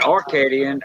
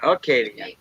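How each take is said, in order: First: An r sound follows the first vowel. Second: No r sound follows the first vowel. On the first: The speaker calls it wrong. "Not Arcadian" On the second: The speaker calls it right.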